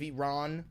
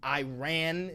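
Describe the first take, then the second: First: It is said in a native-like way. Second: It is said in an Americanized way. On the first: The speaker calls it right. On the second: The speaker calls it wrong.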